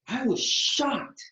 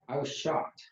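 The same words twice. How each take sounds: First: It is spoken with varied pitch and emphasis. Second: It is spoken flatly on one pitch. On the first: The speaker calls it right. "then with vocal variety" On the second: The speaker calls it wrong. "first with monotone"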